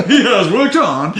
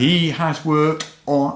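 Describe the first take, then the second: First: Announcer voice collapsing into laughter; laughing through it. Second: Slow drawn-out announcer delivery; boxing ring announcer. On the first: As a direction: crack up mid-announcement. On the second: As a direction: hype it like fight night. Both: Pretend. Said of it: "I'm still doing the boxing announcer voice".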